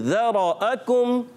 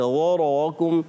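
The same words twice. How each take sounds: First: The r sound is made moderately heavy. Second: The r sound is made overly heavy. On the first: The speaker calls it right. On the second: The speaker calls it wrong.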